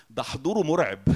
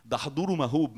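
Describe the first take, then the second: First: ده حضوره مرعب with مرعب said as the mistaken word; wrong word. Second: ده حضوره مهوب with a laugh, correcting to مهوب; laughing correction. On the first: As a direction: say مرعب as the slip, firm. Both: Shown as a demonstration.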